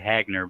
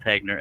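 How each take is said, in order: First: The first vowel sounds like 'hag'. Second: The first vowel sounds like 'heg'. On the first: This is how many people say it. The speaker calls it wrong. "A lot of people say Hagner" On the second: This is the actual name. The speaker calls it right. "but it's Hegner. H E G N E R"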